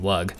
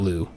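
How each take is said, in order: First: The name ends with a hard g sound. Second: The name ends on an open vowel. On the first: The speaker calls it right. "it is Lug" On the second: The speaker calls it wrong. "this is not Lu"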